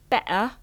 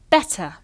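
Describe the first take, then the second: First: The middle t is a glottal stop. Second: The middle t is a clear t.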